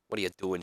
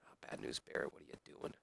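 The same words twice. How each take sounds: First: Said in the usual way. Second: Hushed whisper; disappointed whisper at the wrestler. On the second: Real, not acted. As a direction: whisper it under your breath. Scolding the wrestlers under his breath.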